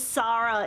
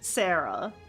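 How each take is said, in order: First: The name is said with a Japanese pronunciation. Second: The name is said with an English pronunciation. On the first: This is how the speaker's own name is said. "my name is Sarah in the Japanese" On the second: This is how most Western people with the name say it. "most Western Sarahs who spell their name S A R A will pronounce it"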